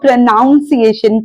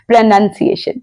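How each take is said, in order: First: The second syllable is said as 'noun'. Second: The second syllable is said as 'nun'. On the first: The speaker calls it wrong. "लोग इस word की भी band बजा देते हैं" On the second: The speaker calls it right. "उच्चारण का उच्चारण होता है"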